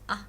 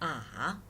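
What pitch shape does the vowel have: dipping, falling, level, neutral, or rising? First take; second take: neutral; dipping. First: The syllable is short and unstressed. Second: The pitch dips down and then rises. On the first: "That means unstressed" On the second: "It goes down and then up"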